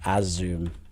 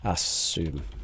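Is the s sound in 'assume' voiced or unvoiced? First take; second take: voiced; unvoiced. First: The s sound is voiced, like a z. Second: The s sound is unvoiced, a hissing s. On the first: The speaker calls it wrong. "your pronunciation was like assume. Uh, it's not that" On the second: The speaker calls it right. "this should be unvoiced"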